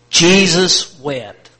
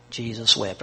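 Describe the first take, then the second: First: Each word drawn out slowly and loudly; slow, loud group recital. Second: Said in the usual way. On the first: Shown as a demonstration. Preacher leading the church in reciting, slow and loud. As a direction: lead the room through it, slow and loud. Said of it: "One, two, three, together". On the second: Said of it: "Okay, ready? One, two, three".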